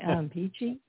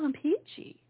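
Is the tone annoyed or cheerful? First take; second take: annoyed; cheerful. First: It is said in a curt, irritated tone. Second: It is said in a warm, cheerful tone. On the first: The speaker is in a bad mood and wants to be left alone. "go to another zip code and do it really quickly because I'm in no mood" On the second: The speaker is fine and happy to have company. "It depends on the tone. If we say, oh, I'm peachy, it's all good"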